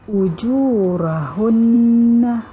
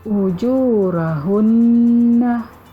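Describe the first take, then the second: The two takes are said the same way.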